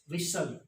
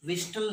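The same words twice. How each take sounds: First: 'whistle' with only the s; whistle with silent t. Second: Wrong 'whistle', t pronounced; whistle with t sounded. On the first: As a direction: drop the t in whistle. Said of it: "silent टी क्या है". ('विसल', 'ट' silent) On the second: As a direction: put a t into whistle. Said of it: "विस्टल नहीं". ('विस्टल', 'ट' बोलकर गलत) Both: Shown as a demonstration.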